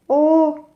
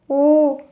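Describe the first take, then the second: No difference in how they are said.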